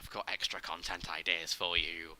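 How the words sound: It is said in a low voice.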